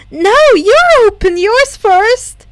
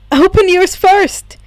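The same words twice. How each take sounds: First: Higher, louder, slow stubborn retort; determined. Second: Louder, firm insistence. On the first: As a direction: dig in stubbornly. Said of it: "just as determinedly". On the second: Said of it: "told her firmly". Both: A narrator's reading.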